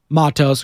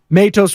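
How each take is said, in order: First: The name has a Spanish-style pronunciation. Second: The name has an English-style pronunciation. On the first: The speaker calls it right. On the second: The speaker calls it wrong.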